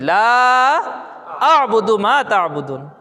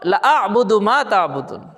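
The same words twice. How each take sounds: First: The first vowel is drawn out long. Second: The first vowel is cut short. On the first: I do not worship what you worship. The speaker calls it right. "উচ্চারণ কি?" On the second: I certainly worship what you worship. The speaker calls it wrong. "আর আমি কি বললাম? ... একটা লামের আলিফের টানে কুফর হয়ে যাচ্ছে"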